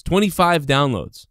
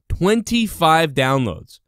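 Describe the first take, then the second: First: Said in the usual way. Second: "Twenty-five downloads" drawn out slowly and higher; slow, higher mocking stress on "Twenty-five"; slow emphatic. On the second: Shown as a demonstration. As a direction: lean hard on "Twenty-five downloads", dragging it out in scorn.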